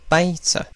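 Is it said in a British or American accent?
American. It is said in an American accent.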